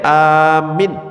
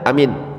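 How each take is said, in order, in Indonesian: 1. Hanya vokal pertama yang panjang. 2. Kedua vokal pendek. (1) "a-nya yang panjang, minnya yang pendek" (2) "dua-duanya nggak panjang, pendek semuanya"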